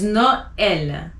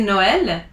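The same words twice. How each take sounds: First: Noël in two clear syllables, "no-EL"; French Noël with the ë sounded separately; emphasized E. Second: Noël run together without emphasis on the E; Noël mispronounced with an English-style O; wrong pronunciation. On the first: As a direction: lean on the E in Noël. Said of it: "So you emphasize the E". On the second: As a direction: glide through Noël as "no-el". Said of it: "you don't wanna say Noël". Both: Shown as a demonstration.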